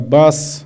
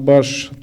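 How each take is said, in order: First: The word ends in an s sound. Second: The word ends in an sh sound. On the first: This is the common Nogai form. "общеногайского «с»" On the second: This is the Yurt dialect form. "на «ш»"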